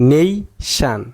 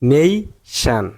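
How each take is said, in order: The two takes are said the same way.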